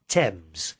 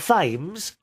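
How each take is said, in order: First: The word begins with a plain 't' sound. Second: The word begins with a 'th' sound. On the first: The speaker calls it right. "T E M Z. Thames. That's how you say it" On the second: The speaker calls it wrong. "Not Thames"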